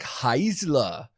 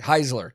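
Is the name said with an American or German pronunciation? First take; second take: German; American. First: The name is said with German pronunciation. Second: The name is said with American pronunciation. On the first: The speaker calls it wrong. "pronounce that super German" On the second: The speaker calls it right. "the American way"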